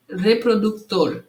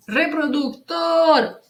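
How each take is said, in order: First: Said in the usual way. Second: High, slow, held tor in reproductor; calling out reproductor. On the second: Shown as a demonstration. Teacher showing how to find stress, reproductor called out long. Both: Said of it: "É só chamar a palavra".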